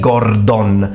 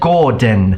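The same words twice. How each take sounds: First: The second syllable has a full O vowel. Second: The second syllable has a weak, E-like vowel. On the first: "like for example an Italian would say" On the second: "the sound is closer to a E sound"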